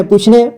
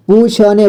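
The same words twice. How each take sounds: First: Said in the usual way. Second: "पूछने" split as poo-chha-ne; beginner's reading of "पूछने" as poo-chha-ne; sounded out letter by letter. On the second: Shown as a demonstration. Teacher sounds out, then reads whole.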